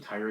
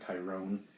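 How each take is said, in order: First: The last syllable sounds like 'ron'. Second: The last syllable sounds like 'rone'. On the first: The speaker calls it right. "his name is Tyron" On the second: The speaker calls it wrong. "not Tyrone"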